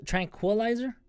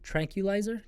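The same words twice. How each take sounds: First: Tranquilizer said higher with a kw sound, tran-kwuh-lizer; getting Tranquilizer right at last; another try at Tranquilizer. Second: Tranquilizer tried out softly, a little higher, as a question; testing how to say Tranquilizer; practising Tranquilizer. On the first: Tranquilizer sounded out once more. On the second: Sounding out Tranquilizer after stumbling on it. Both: Shown as a demonstration. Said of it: "I can't even say that word".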